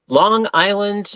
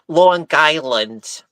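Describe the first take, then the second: First: It is said in a plain accent. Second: It is said in a local Long Island accent.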